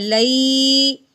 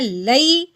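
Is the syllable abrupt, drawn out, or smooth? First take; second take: drawn out; abrupt. First: The syllable is stretched out long. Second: The syllable is cut off with a sharp jerk. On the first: "ना ही हमने खींच के पढ़ना है" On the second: "ना तो झटका लगाना है"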